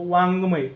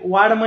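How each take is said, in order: First: The middle consonant is a nasal ng sound. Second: The middle consonant is a plain d sound. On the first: The speaker calls it right. "याचा काय होत असतो, वाङ्मय" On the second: The speaker calls it wrong. "वाडमय असा उच्चार न होता"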